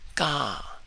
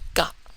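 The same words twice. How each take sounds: First: The vowel is said on a high tone. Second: The vowel is short and cut off abruptly. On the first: "it raises the vowel sound into a high tone" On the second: "no longer ka"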